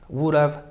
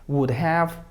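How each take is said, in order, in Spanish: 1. La palabra have se reduce y se une a la palabra siguiente. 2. La palabra have se pronuncia completa. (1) "Pronunciación informal y como comúnmente se habla" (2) "Pronunciación formal"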